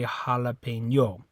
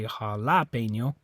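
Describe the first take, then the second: First: The stress is on the fourth syllable. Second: The stress is on the second syllable. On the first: "it's not the O. You don't say jalapeno" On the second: "It's not that A. You don't say jalapeno"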